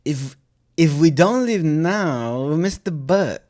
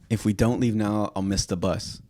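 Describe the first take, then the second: First: It is said in a Borat-like foreign accent. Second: It is said in his normal accent.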